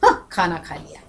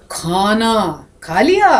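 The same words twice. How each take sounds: First: Low, soft "हाँ, खाना खा लिया", falling; soft falling confirmation on "खाना खा लिया"; meaning by intonation. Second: Very slow "खाना", big rise on "लिया"; long drawn questioning "खाना खा लिया"; meaning by intonation. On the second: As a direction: stretch "खाना" out, then swing "लिया" up as a question. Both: Shown as a demonstration. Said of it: "और अर्थ कितने सारे आ गए".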